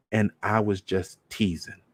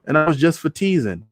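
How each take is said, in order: First: Softer, slower, flat mock echo; girl echoing her uncle, cold mockery. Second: Higher, brushing it off; dismissive teasing. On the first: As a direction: hand his own words back to him coldly. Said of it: "just how he said it". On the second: Retold or imitated. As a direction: wave it away lightly. Just how he said it.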